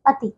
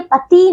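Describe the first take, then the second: First: पति with a short final i; correct short ending. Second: पति said with a long final ee; wrong long ending. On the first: Teacher correcting pupils, पति with short i. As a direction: keep the last i of पति brief. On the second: Teacher showing pupils the error, पति with long ee. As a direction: stretch the last vowel of पति. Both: Shown as a demonstration. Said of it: "पति नहीं".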